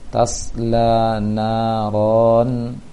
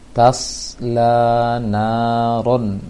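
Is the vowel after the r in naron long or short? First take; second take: long; short. First: The vowel after the r is long. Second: The vowel after the r is short. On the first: The speaker calls it wrong. "dibaca panjang, seharusnya langsung pendek" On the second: The speaker calls it right. "tanpa memanjangkan ronya"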